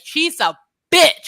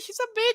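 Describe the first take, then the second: First: It is said forcefully, deep, with a pause. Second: It is said lightly, rolling straight through. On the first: The insult is meant to land hard. The speaker calls it right. "you pause. You put some bass into it" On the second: The insult is tossed off without effect. The speaker calls it wrong. "just like roll through it"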